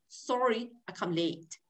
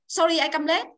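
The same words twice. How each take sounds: First: It is said with a native-like English accent. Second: It is said with a Vietnamese-style accent. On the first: The speaker calls it right. "Cô đọc sorry" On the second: The speaker calls it wrong. "Nhưng cô không thế"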